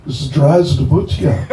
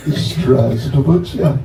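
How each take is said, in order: First: Slow, careful "Здравствуйте", every syllable drawn out with a laugh; proper Russian greeting. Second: "Здравствуйте" said very slowly, syllable by syllable, falling at the end; proper Russian greeting. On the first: Teaching the crowd the formal Russian hello, slow and careful. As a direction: sound out "Здравствуйте" slowly and properly. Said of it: "to do it sort of properly". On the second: Repeating the Russian hello so the crowd can copy it, slowly. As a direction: drag out "Здравствуйте" for learners. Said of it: "That's what you say". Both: Shown as a demonstration.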